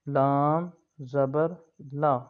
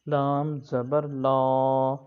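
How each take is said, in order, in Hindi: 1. अंतिम 'la' छोटा और नरम है। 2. अंतिम 'la' खिंचा हुआ और भारी है। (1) "नरमी के साथ पढ़ना है, इसको खींचना नहीं है" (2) "ऐसे नहीं पढ़ना"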